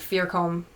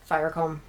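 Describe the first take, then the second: First: The first syllable has an 'ee' vowel. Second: The first syllable has an 'eye' vowel. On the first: The speaker calls it wrong. "I always want to say Fearcombe" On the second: The speaker calls it right. "but it's Firecombe"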